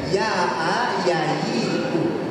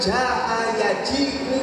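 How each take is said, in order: First: The words are said with y sounds. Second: The words are said with j sounds.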